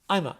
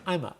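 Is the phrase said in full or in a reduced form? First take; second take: reduced; reduced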